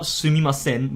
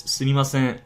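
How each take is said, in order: First: "sumimasen" with a full, strong final n; too strong n. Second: "sumimasen" with a light, barely there final n; soft n. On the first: Teacher to learners, the wrong "sumimasen". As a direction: lean on the n in "sumimasen". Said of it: "don't pronounce it too strongly". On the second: Teacher to learners, the right "sumimasen". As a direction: let the n in "sumimasen" fade. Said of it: "but it's". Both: Shown as a demonstration.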